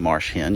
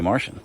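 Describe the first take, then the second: First: Said plainly, with two clear words: marsh hen. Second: Said in a Charleston accent, sounding like Martian. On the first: "you don't say marsh hen" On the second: "because she's from Charleston, ... you say Martian"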